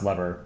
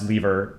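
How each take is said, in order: First: The word is said the American English way. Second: The word is said the British English way. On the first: "In American English, it's pronounced lever" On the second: "it's interchangeable in uh, British British language, or sorry, British English. Um, it's pronounced lever"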